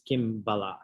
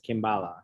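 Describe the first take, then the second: First: It is said with its original Sanskrit pronunciation. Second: It is said with a plain anglicized pronunciation. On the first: This is how the original source word sounds. "the Sanskrit background of it, which is Kimbala" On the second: This is the everyday reading of the brand name. "it is read and pronounced as Kimbala"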